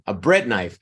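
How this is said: The stress falls on the word bread. It names the object itself. The speaker calls it right. "pronounced emphasizing or stressing the first word because they're objects"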